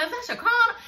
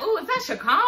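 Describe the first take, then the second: First: Much higher, laughing, near-crying fan squeal; over-the-top groupie squeal. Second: High, giggly fan gushing at a celebrity; starstruck groupie. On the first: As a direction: squeal like a fan who can't believe it. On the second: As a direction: gush like a fan spotting a star. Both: Retold or imitated. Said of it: "like, he a groupie or something".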